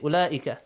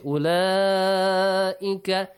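First: The long vowel is cut short. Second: The long vowel is held for a long time. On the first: The speaker calls it wrong. "You should not say" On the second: The speaker calls it right. "You should say"

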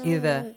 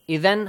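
First: The word ends on a vowel without n. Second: The word ends with a final n sound. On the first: The reader stops at this word. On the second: The reader continues without stopping.

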